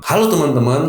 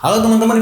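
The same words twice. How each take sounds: First: It is spoken at a moderate, even pace. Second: It is spoken much too fast. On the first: The speaker calls it right. "Ini adalah contoh baiknya" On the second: The speaker calls it wrong. "ini adalah contoh speed yang terlalu cepat"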